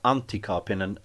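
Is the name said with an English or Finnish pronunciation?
Finnish. The name is said with Finnish-style sounds. The speaker calls it right.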